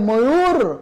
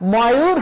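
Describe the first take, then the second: First: The first vowel is a closed 'o' sound. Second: The first vowel is an open 'aw' sound. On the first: The speaker calls it right. "হবে ময়ূর" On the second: The speaker calls it wrong. "তাহলে এটা ময়ূর হবে না"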